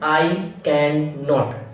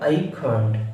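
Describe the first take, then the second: First: The words are said in full, uncontracted. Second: The words are squeezed into one contracted form. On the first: The speaker calls it wrong. "we don't pronunciation I cannot" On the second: The speaker calls it right. "we can pronunciation that is I can't"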